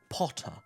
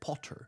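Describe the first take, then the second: First: The final R sound is silent. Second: The final R sound is pronounced. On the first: The speaker calls it right. "No R at the end" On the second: The speaker calls it wrong. "Notice it's not Potter"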